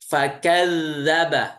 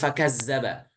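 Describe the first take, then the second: First: The dh sound is voiced without audible air. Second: The dh sound has audible escaping air. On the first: The speaker calls it right. "mengalirkan suara tanpa udara" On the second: The speaker calls it wrong. "masih terdengar udaranya"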